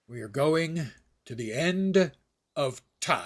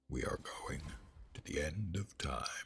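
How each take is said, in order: First: It is said in a normal voice. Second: It is said in a deeper voice.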